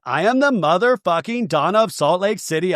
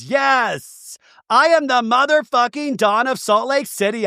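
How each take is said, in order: First: Said in the usual way. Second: High-pitched, emphatic retold boast; mock raise-the-roof boast. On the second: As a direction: declare it high and proud, imitating a reality star. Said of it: "she's raising the roof as she says it".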